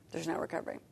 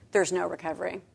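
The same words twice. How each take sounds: First: Much softer, nearly gone; fading despair. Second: Soft, heavy "There's no recovery"; quiet despair. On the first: Echoing the reader's despair, a much softer fading repeat. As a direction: let it die away to almost nothing. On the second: Voicing the reader's reaction to adultery, quiet despair. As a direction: say it low and hopeless. First take of the repeat. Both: Retold or imitated.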